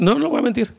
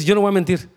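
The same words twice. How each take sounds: First: Higher, insistent voice of a believer who won't lie; firm refusal. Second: Said in the usual way. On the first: Retold or imitated. Quoting the firm refusal again.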